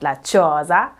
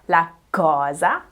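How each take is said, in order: First: The word begins with a soft ch sound. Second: The word begins with a hard k sound. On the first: The speaker calls it wrong. "not la cosa" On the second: The speaker calls it right. "C and G are hard, meaning they come out as a k and a g sound before o"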